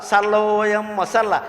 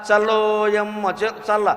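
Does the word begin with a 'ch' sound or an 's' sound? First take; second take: s; ch. First: The words begin with an 's' sound. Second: The words begin with a 'ch' sound. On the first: The speaker calls it wrong. "సల్ల అంటోంది" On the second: The speaker calls it right. "చల్ల అనడం లేదు"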